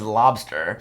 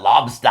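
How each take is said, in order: First: It is said in a plain accent. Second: It is said in a New England accent.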